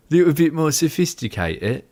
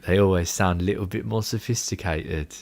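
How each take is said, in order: First: Higher, put-on British accent; playfully hammed-up British accent; bad British accent. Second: Said in the usual way. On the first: Shown as a demonstration. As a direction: mimic a British accent badly. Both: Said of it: "That's the worst British accent".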